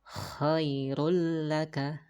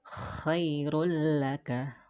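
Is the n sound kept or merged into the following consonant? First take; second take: merged; merged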